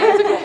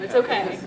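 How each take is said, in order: First: Higher and louder, laughing fake calm; mock reassurance. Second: Said in the usual way. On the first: Band member jokingly dismissing a fainting, hammed-up calm. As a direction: brush it off with a laugh.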